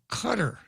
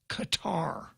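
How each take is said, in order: First: It sounds like the English word cutter. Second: It does not sound like gutter or cutter. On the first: The speaker calls it right. "Or it's cutter" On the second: The speaker calls it wrong. "is not pronounced Qatar"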